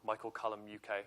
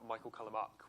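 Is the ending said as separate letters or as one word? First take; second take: letters; one word. First: The ending is said as two separate letters. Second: The ending is said as one short word. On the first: The speaker calls it right. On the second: The speaker calls it wrong.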